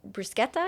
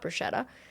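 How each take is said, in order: First: The word is said with Italian pronunciation. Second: The word is said with English pronunciation. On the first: The speaker calls it right. "because that's how you really say it. I learned in Italy" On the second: The speaker calls it wrong. "not bruschetta"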